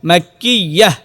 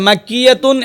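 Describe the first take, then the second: First: The word ends with a silent h sound. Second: The word ends with a full tun syllable. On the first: The reciter stops at this word. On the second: The recitation continues without stopping.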